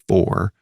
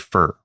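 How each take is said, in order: First: The vowel is a full 'or' sound. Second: The vowel is a reduced 'ur' sound. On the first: "like the car Ford" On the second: "we say fur, like F U R"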